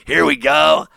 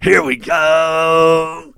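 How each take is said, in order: First: Said in the usual way. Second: Very slow, drawn-out shouted snap call; quarterback cadence shout. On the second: Retold or imitated. Host mocking Dak Prescott's cadence with a drawn-out shout. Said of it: "That's their cadence".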